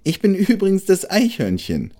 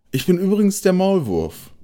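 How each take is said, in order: First: High, giggly squirrel voice on "bin"; giggling squirrel. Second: High, eager mole voice for "übrigens"; mole character. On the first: The squirrel introduces itself to the mole, high and giggling. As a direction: add it with a little giggle, pitched up. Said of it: "fügte kichernd hinzu". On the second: The mole introduces himself to the squirrel in a high voice. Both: A narrator's reading.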